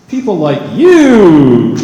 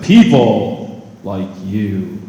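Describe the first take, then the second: First: "you" much louder and drawn out; slow build to a loud YOU; stress on YOU. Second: PEOPLE said slow and loud, much lower; slow stretched "People like you" with weight on People; stress on PEOPLE. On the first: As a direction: slam the word "you". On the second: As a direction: lean hard on "People". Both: Shown as a demonstration. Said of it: "I put emphasis on different words".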